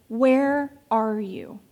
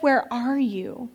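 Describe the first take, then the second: First: Slow, drawn-out calling question; slow seeking call from God; God calling out, slowly. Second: Slow, gently rising question; God calling out, drawn out; God's question, slow. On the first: Acted. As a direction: call it out slowly and let it fall. God calls to the hiding man. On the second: Retold or imitated. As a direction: ask it slowly and let it rise. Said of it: "So when God says".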